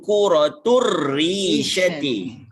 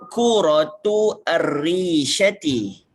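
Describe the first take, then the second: First: The two words are linked into one flow. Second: The two words are said separately, unlinked.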